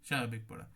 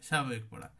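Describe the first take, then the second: The two takes are said the same way.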